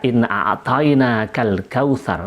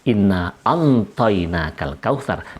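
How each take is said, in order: First: The second word has a throat ayn sound. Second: The second word has an n sound instead. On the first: This is the form the listeners found strange. "merasa aneh dan janggal dengan kata a'tayna" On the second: This is the form adapted to the tribe's dialect. "dengan bunyi inna antayna kal kautsar"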